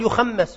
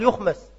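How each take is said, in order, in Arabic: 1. الحرف الأوسط مشدد، وهي صيغة ثقيلة. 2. الحرف الأوسط مخفف، وهي صيغة خفيفة. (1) "غيره يقول يخمس" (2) "والشافعي يحب التخفيف"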